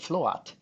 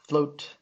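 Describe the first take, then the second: First: The word is split into two syllables. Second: The word is said as one syllable. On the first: The speaker calls it wrong. "we don't say float" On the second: The speaker calls it right. "These have one vowel sound in them"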